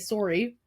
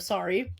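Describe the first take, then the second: First: It is said with a Canadian accent. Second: It is said with a standard accent.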